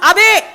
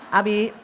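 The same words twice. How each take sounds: First: It is called at a much higher, harsher pitch. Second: It is called sweetly at a normal pitch.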